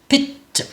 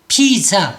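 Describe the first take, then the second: First: The final vowel is a reduced schwa sound. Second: The final vowel is a full ah sound. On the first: The speaker calls it right. "발음은 실제적으로는 피죠, 피죠 이렇게 되죠" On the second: The speaker calls it wrong. "피자 이렇게 우리 한국어로는 그렇게 말하지만"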